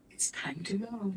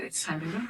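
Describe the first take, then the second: First: Softer, voiceless whisper of intuition; whispered inner voice. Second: Said in the usual way. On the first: Retold or imitated. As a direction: let the inner voice breathe it out. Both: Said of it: "My intuition said".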